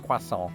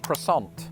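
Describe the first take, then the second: First: It is said with a British, French-like pronunciation. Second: It is said with an American, non-French pronunciation. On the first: "in Britain, with this word, the French somehow convinced us to say that as croissant" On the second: "In American, they've just abandoned the French altogether with that particular word, and they say croissant"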